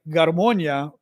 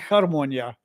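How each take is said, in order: First: The word begins with a hard g sound. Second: The word begins with an h sound. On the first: This is the Russian way of saying it. "So I would say like" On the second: This is the Ukrainian way of saying it. "but it could be"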